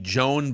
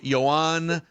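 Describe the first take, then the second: First: The name is said with an American Midwestern accent. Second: The name is said with a French accent. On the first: "southern Minnesota pronunciation would be" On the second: "France pronunciation would be"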